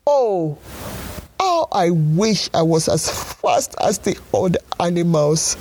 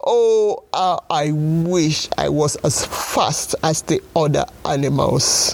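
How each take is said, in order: First: Lightly voiced snail lament; crying snail. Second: Tearful cry breaking on the oh; sobbing snail. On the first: Snail wishing aloud to be fast, mild crying. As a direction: wail it like a sad little snail. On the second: Acted. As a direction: sob it out, near tears. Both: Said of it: "cried the snail".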